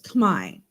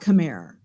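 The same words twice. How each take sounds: First: The word ends without an 'er' sound. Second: The word ends with a clear 'er' sound. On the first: The speaker calls it right. "you don't actually say the E R on the end" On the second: The speaker calls it wrong. "It's actually not Khmer"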